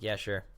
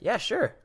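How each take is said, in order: First: It is said flatly, without any excitement. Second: It is said with enthusiastic, lively energy. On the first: The speaker agrees reluctantly. "that's like I'm not excited at all" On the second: The speaker is glad to agree. "it's very enthusiastic"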